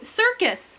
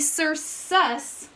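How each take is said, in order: First: The second C sounds like K. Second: The second C sounds like S. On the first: The speaker calls it right. "That's right, circus" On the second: The speaker calls it wrong. "We don't say sir sus"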